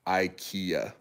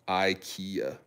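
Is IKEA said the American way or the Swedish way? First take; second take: American; American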